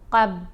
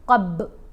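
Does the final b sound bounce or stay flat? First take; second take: flat; bounce. First: The final b is closed flat without echo. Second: The final b is released with a bouncing echo. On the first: The speaker calls it wrong. "क़ाफ को बा से मिलाते हुए कब कब, तो कलकला अदा नहीं हो रहा" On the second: The speaker calls it right. "क़ब पढ़ेंगे तो कलकला अदा होगा"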